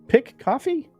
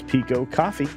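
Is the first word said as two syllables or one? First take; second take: one syllable; two syllables. First: The first word has one syllable, 'pick'. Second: The first word has two syllables, 'pee-co'. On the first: The name means a picture of coffee. The speaker calls it right. "Did I get that right?" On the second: The name means small coffee. The speaker calls it wrong. "That's why I was pronouncing it wrong"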